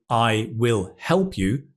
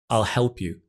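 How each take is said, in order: First: It begins with the full words 'I will'. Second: It begins with the contracted form 'I'll'. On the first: "instead of I will help you" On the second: "you may hear I'll help you"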